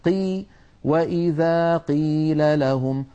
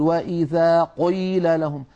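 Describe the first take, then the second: First: Slow recitation, "قيل" with an easy, moderate qaf; balanced qaf. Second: Slow recitation, "قيل" swollen toward "qoyl"; over-heavy qaf. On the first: Teacher showing the correct moderate sound, easy qaf. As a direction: say "قيل" neither thinned nor swollen. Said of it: "تحب الأصوات المعتدلة". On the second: Teacher mimicking faulty reciters, exaggerated heavy qaf. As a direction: exaggerate the thick, dark ق in "قيل". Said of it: "يبالغ في تفخيم القاف المكسورة". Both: Shown as a demonstration.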